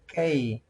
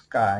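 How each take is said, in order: First: K said as "kay"; English K. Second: K said as "ka", open "ah" vowel; Quechua K. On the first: Teacher contrasting with English, K said as "kay". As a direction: say K with the English "ay" glide. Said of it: "In English, you pronounce". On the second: Teacher showing the Quechua alphabet, K said as "ka". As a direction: say K as "kah", the Quechua way. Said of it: "You pronounce K in Quechua". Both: Shown as a demonstration.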